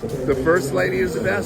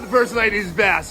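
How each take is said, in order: First: It is said plainly, without extra energy. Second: It is said with exaggerated, energetic anime flair.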